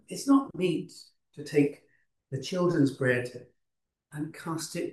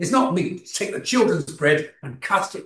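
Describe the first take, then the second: First: The words are said in a gentle tone. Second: The words are said in a harsh tone. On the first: The remark is meant kindly and softened. "as I believe Jesus would have said it" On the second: The remark is meant to belittle the listener. "You could say it in that tone of voice"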